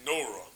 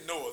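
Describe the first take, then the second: First: It is said with an R sound. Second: It is said without an R sound. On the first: "they say Noah. You hear that R sound in there" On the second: "they didn't say Noah"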